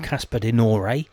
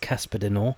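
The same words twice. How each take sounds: First: The surname is pronounced in an Italian way. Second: The surname is pronounced in a Flemish way. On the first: The speaker calls it wrong. "It's not Casper De Norre. He's not Italian" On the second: The speaker calls it right. "And it is Casper De Norre"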